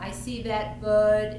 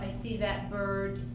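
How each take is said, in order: First: The word bird has a W-like sound, no R. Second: The word bird has a clear R sound. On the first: The speaker calls it wrong. "W sound instead of an R" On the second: The speaker calls it right. "instead of"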